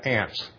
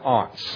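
First: The vowel is a short flat 'a' sound. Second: The vowel is a broad open 'ah' sound.

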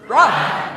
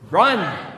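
First: The word is said with loud, lively energy. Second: The word is said in a calm, plain way.

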